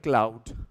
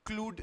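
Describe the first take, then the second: First: The vowel glides from ah to oo. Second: The vowel is a long oo sound. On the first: The speaker calls it right. "That's how you would say" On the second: The speaker calls it wrong. "क्लूड नहीं पढ़ना है इसको"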